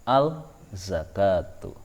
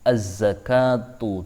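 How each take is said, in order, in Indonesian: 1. Huruf l dibaca sebelum konsonan itu. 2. Huruf l melebur ke konsonan setelahnya. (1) "Tidak boleh dibaca" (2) "maka cara bacanya adalah"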